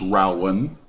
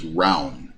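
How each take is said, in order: First: The name is said as two syllables. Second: The name is said as one syllable. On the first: "If you must say it with two two syllables" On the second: "this is correct pronunciation"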